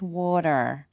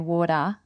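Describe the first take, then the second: First: The final R is pronounced, American style. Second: The final R is dropped, Australian style. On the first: "if you're from America or Canada, it's water" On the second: "That's how we pronounce it in Australia"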